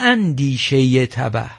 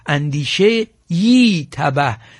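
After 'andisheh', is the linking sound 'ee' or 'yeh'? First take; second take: yeh; ee. First: A short 'yeh' sound links andisheh to tabah. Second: A full 'ee' vowel follows andisheh. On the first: It means the ruinous thought, as a linked phrase. The speaker calls it wrong. "نه اندیشه ی تبه" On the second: It means a ruinous thought. The speaker calls it right. "در آن هنگام می خواندند اندیشه ای تبه"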